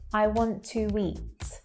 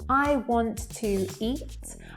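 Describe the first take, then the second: First: A w sound links 'to' and 'eat'. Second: Each word is said separately, with no linking. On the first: The speaker calls it right. "to be more natural" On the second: The speaker calls it wrong. "I'm pronouncing each word there clearly"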